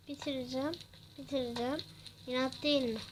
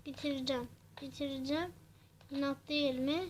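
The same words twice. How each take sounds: The two takes are said the same way.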